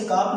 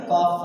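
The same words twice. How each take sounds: First: काफ with the silent L wrongly sounded; mispronounced काफ, L audible; wrong pronunciation. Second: Said in the usual way. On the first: Shown as a demonstration. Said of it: "नहीं पढ़ेंगे". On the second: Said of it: "पढ़ेंगे इसे".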